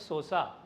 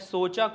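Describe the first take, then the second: First: The middle consonant is an 's' sound. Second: The middle consonant is a 'ch' sound.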